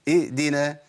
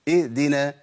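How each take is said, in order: Both takes have the same delivery.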